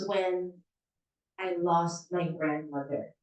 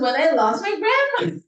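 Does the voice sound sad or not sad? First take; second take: sad; not sad. First: The voice sounds sad and emotional. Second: The voice does not sound sad. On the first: The speaker calls it right. "Eh medyo sad yung kwento mo" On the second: The speaker calls it wrong. "Hindi yung, ... Hindi ganon"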